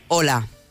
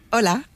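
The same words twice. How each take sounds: First: It sounds strong, tense and authoritative. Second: It sounds relaxed, warm and friendly.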